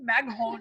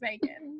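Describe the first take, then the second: First: The name is read letter by letter as Mag-hon. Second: The name is said plainly as Megan. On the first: Someone unfamiliar with the name misread it. The speaker calls it wrong. "she'd be like Mag Maghon" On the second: This is how the owner says her name. The speaker calls it right. "it's just Megan"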